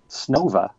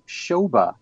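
First: The word begins with an 'sn' sound. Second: The word begins with an 'sh' sound. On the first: The speaker calls it right. "the correct pronunciation in Russian is Snova" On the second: The speaker calls it wrong. "which for many years I pronounced Shoba"

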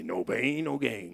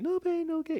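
First: It is said in a cool, tough way. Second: It is said in a plain, flat way.

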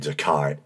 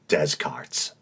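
First: The name follows its French pronunciation. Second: The name is pronounced letter by letter as written. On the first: The speaker calls it right. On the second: The speaker calls it wrong.

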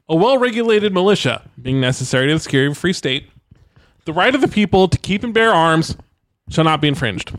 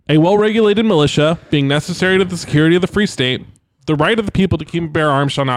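First: It is read with pauses at the commas. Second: It is read straight through without comma pauses.

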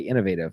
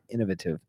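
First: It is said with an American accent. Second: It is said with a British accent. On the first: This is not how people there say it. "They wouldn't say innovative" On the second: This is how people there say it. "they would say innovative"

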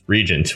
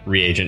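First: It is said like the word regent. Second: It is said as re plus agent. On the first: The speaker calls it wrong. "which is just regent, which is totally wrong" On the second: The speaker calls it right. "reagent probably really is the way you pronounce that"

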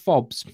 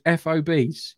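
First: It is said as one word, fobs. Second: It is spelled out letter by letter. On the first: It sounds like a USB drive fob. The speaker calls it wrong. "not FOBs" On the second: It names forward operating bases. The speaker calls it right. "forward operating bases are referred to as FOBs"

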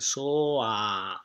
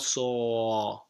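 First: The o moves on into an open ah. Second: The voice stays on the o vowel. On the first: The speaker calls it right. "after o, you have to say ah, so open. Soa" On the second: The speaker calls it wrong. "not so. Don't stay on the o"

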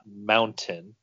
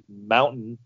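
First: The middle t is a clear t. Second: The middle t is a glottal stop. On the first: "and not mountain" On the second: "if you're from like the Mountain West, you would probably say mountain"

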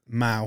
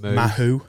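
First: The name is said as 'Mao'. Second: The name is said as 'Mahu'. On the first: The speaker calls it right. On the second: The speaker calls it wrong.

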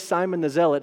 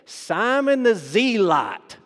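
First: It is said in the speaker's plain accent. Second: It is said in an imitated Kentucky hillbilly accent.

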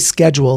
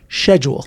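First: The word begins with an 'sk' sound. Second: The word begins with an 'sh' sound. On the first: "they don't say schedule" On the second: "they say schedule ... So the CH is like a SH"

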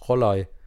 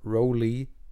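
First: The name is pronounced the native German way. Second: The name is pronounced the anglicized way. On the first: The speaker calls it right. "help out with my native German speaking skills" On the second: The speaker calls it wrong. "it's not Roli"

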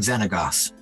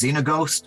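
First: The name ends with a short 'gos' sound. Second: The name ends with a 'ghost' sound. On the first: The speaker calls it right. "I am Xenagos" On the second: The speaker calls it wrong. "Sometimes mispronounced as Xenaghost"

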